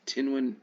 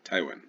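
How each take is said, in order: First: The name has an n sound in the middle. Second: The name has no n sound in the middle. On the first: The speaker calls it wrong. "There was no N, I don't think, after the Y" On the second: The speaker calls it right. "It's probably pronounced this way"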